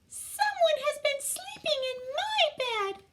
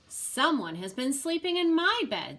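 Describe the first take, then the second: First: It is said in a tiny, small voice. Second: It is said in a middle-sized voice.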